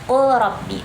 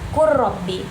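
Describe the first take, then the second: First: The L is sounded before the R. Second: The L merges into a doubled R. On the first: It follows the written spelling. "kalau misalnya kita bacanya secara tulisan" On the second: It follows the proper recitation rule. "tapi cara bacanya kan qur rabbi, jadinya melebur"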